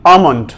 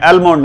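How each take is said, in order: First: आमंड opening "aa-m", no l; long vowel straight into m in आमंड; silent l. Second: एलमोंड with the l sounded; wrong pronunciation. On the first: Teacher models the proper reading, silent l. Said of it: "एल इसमें silent है". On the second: Teacher says not to read it so, wrong pronunciation. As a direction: start एलमोंड with "el". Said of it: "एलमोंड नहीं पढ़ना". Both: Shown as a demonstration.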